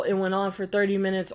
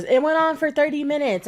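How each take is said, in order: First: Said in the usual way. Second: Mocking, higher and louder; mock her claim, pitched up; mocking quote. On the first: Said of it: "I don't believe the whole". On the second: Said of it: "I'm gonna zoom in and shake my head".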